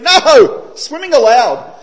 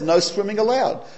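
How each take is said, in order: First: There is a break after "no". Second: It is said as one phrase without a pause.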